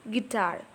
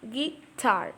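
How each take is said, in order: First: Said in the usual way. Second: "guitar" pulled apart as gui, then tar; split into syllables. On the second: Shown as a demonstration. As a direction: say "guitar" in two separate beats, gui and tar. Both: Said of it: "Gi is a weak syllable".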